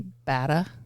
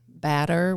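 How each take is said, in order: First: The R sound is dropped. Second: The R sound is pronounced.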